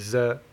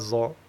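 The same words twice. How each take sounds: First: The letter is said thin, without emphasis. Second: The letter is said thick, with emphasis. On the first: The speaker calls it right. "on dit za" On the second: The speaker calls it wrong. "on dit pas za"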